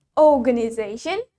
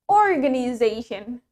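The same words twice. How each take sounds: First: Organization with a long O, no R; British "oh" opening organization; British pronunciation. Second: Organization with a sounded R; American "or" opening organization; American pronunciation. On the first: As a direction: drop the R in "organization", British style. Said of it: "In British English, we say it". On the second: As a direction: hit the R in "organization", American style. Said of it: "in American English, we say it". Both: Shown as a demonstration.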